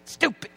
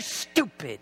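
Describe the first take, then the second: First: Said in the usual way. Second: "stupid" dropped low and soft, muttered. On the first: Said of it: "repeated word, second take". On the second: Shown as a demonstration. Preacher muttering "stupid" to himself, low and soft. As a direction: mutter "stupid" under your breath. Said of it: "repeated word, first take low".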